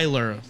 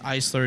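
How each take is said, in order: First: The s is silent, like in island. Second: The s is clearly pronounced. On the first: The speaker calls it wrong. "like it's an island, ... the S is silent" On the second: The speaker calls it right. "it's Eisler, it's German"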